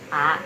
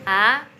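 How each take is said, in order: First: The tone stays low without rising at the end. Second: The tone dips and then rises at the end. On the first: "kita bacanya pakai nada rendah kita aja" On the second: "naiknya biasa"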